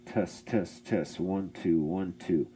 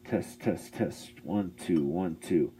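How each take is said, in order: No difference in how they are said.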